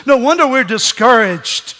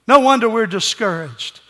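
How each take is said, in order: First: Emphatic declaration. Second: Said in the usual way. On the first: Shown as a demonstration.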